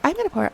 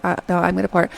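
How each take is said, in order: First: High mock insistence; high-voiced contradiction; insistent girl imitation. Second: Understated, level-pitched retort; guy's reply. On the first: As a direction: imitate her bickering, pitched way up. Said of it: "And she's like". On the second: Retold or imitated. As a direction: imitate a guy holding his ground. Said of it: "and he's like".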